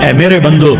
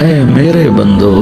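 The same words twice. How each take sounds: First: It is said in a plain, unaffectionate tone. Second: It is said in a tender, loving tone. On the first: The speaker calls it wrong. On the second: The speaker calls it right.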